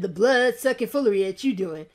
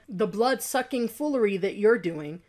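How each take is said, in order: First: It is said in an exaggerated, mocking accent. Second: It is said plainly, without an exaggerated accent. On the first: It mocks the person as a stereotype. The speaker calls it wrong. "made fun of it" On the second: This is how the original person actually spoke. The speaker calls it right. "That's how he said it"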